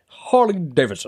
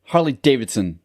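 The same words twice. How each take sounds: First: Imitating an odd accent on Harley Davidson; mimicking his friend's odd pronunciation of Harley Davidson; mock accent. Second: Odd tone. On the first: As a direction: copy the weird way he said Harley Davidson. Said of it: "what type of accent is that". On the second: Real, not acted. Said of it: "you said it with, like, a fucking weird tone talk".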